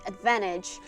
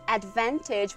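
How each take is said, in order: First: The T sound in the middle is dropped. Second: The T sound in the middle is pronounced.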